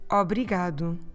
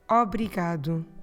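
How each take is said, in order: Both takes have the same delivery.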